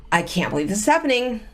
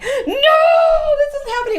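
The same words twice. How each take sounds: First: Said in the usual way. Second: High, loud hammed-up wail of denial; mock wailing. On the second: A wife mocks the hysterical crying she avoided, wailing shout. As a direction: throw out a fake sobbing shout, half laughing. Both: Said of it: "it was more like".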